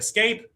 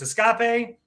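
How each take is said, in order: First: The word is pronounced in the ordinary way. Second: The word is pronounced in a playful, unusual way. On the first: It is how many people say it. "Some people say escape" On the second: It is a fun nod to a movie character. "if you are a huge fan of Finding Nemo and Dory. In that case, it's escape"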